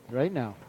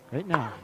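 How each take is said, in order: Both takes have the same delivery.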